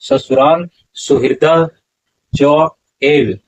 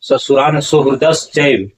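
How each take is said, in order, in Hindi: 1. अंतिम शब्द अलग-अलग शब्दों की तरह बोले जाते हैं। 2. अंतिम शब्द मिलाकर एक शब्द की तरह बोले जाते हैं। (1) "चैव नहीं, च एव" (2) "सुहृदश्चैव इसका उच्चारण नहीं होगा"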